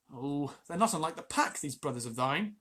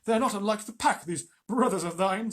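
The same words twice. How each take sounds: First: Said in the usual way. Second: Akela's voice. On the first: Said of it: "Sorry, no, that was, um, Akela". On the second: A narrator's reading. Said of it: "that was, um, Akela".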